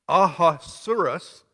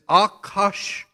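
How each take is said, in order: First: The name is said in its anglicized form. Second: The name is said in its Hebrew form. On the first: "pronounced Ahasuerus" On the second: "the Hebrew pronunciation is Akashwerosh"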